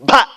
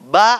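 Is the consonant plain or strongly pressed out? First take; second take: pressed; plain. First: The consonant is pressed out with force. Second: The consonant is soft and plain. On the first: The speaker calls it right. "ப அழுத்தி சொல்லணும்" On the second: The speaker calls it wrong. "ப அல்ல"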